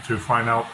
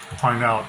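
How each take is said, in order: Both takes have the same delivery.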